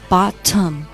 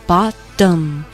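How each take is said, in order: First: The middle consonant is a clear t sound. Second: The middle consonant is a soft d-like sound. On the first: The speaker calls it wrong. "注意不是bottom" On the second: The speaker calls it right. "是bottom，有点类似于地零"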